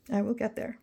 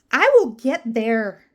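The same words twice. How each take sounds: First: Softer, "will" rising to a questioning end; quiet repeat. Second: "will" stressed loud and slow; emphatic resolve. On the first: To viewers, quietly doubting her own promise. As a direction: say "will" softly and let it rise. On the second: Promising viewers, "will" loud and slow. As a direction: lean hard on "will" and take it slow. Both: Shown as a demonstration.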